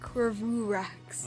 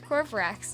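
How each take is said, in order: First: An extra vowel comes between v and r. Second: The v runs straight into the r. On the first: The speaker calls it wrong. "not Corvurax" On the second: The speaker calls it right. "is pronounced Corvrax"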